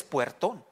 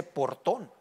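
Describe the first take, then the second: First: "puertón" with a diphthong, pwer-TON, drawn out; wrong form puertón. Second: "portón" with a plain O, por-TON, drawn out; correct form portón. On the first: Preacher showing the region's mistaken word, "puertón" with a pwer sound. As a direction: say "puertón" slowly with a WE glide in the first syllable. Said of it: "porque no dices puertón". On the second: Preacher teaching the proper word, "portón" with a plain por sound. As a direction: say "portón" slowly, pure O in the first syllable. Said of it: "se dice portón". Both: Shown as a demonstration.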